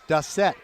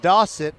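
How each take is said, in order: First: The name is said not rhyming with faucet. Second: The name is said to rhyme with faucet. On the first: The speaker calls it wrong. "So many of them are calling him Dossett" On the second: The speaker calls it right. "it's Mason Dossett, as in faucet"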